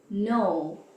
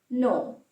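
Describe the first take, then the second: First: The word is drawn out and long. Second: The word is clipped and very short. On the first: This is how the word sounds in English. "In English, no is a bit longer sounding" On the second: This is how the word sounds in Italian. "In Italian, it's very short"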